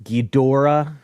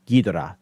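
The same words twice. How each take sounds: First: "Ghidorah" as ghee-DOR-uh, middle stressed; common mispronunciation. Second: "Ghidorah" as ghee-do-rah, no syllable stressed; even syllables. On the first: Showing how people say it wrongly, middle-stressed. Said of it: "people say". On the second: Guest showing the correct way, evenly weighted. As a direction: give each syllable of "Ghidorah" equal weight. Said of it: "supposed to all be even". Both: Shown as a demonstration.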